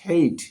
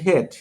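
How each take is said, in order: First: The vowel glides from e to i. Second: The vowel is a plain short e sound. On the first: The speaker calls it right. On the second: The speaker calls it wrong.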